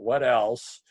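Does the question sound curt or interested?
curt. The question sounds curt and flat. The asker is only pressing for more. The speaker calls it wrong. "It's not what else"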